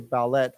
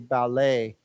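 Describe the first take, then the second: First: The final T sound is pronounced. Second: The final T sound is left silent. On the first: The speaker calls it wrong. "We don't say ballet" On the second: The speaker calls it right. "we do not pronounce the T"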